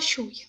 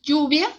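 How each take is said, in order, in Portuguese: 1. É pronunciada com sotaque espanhol argentino. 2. É pronunciada com sotaque espanhol não argentino. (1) "na Argentina eles vão falar" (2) "esse é o meu sotaque"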